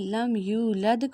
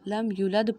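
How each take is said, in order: First: The 'yu' vowel is stretched long. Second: The 'yu' vowel is cut short. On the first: The speaker calls it right. "हमने यू को खींचना था" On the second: The speaker calls it wrong. "हमने खींचा नहीं और जल्दी से पढ़ दिया"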